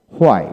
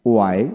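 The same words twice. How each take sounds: First: হোয়াই with h onset, falling; American pronunciation. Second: ওয়াই with plain w, rising; British pronunciation. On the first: Teacher drilling wh words, American pronunciation. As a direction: say হোয়াই leading with a breathed h. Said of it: "এবং আমেরিকানে হ". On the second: Teacher drilling wh words, British pronunciation. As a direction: say ওয়াই without any h. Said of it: "British উচ্চারণে". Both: Shown as a demonstration.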